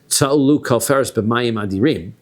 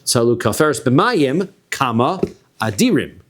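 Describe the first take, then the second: First: It is read straight through without a pause. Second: There is a pause before the last word. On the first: The water is the mighty thing. The speaker calls it wrong. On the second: The mighty ones are the people in the water. The speaker calls it right.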